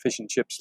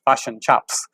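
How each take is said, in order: First: It is said in a plain, neutral accent. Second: It is said in an exaggerated New Zealand accent. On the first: It is the ordinary everyday way of saying it. "I call it fish and chips like everybody else" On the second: It mimics how outsiders hear New Zealanders. "if you want the Australian version of the New Zealand accent"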